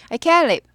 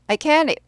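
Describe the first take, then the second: Both takes have the same delivery.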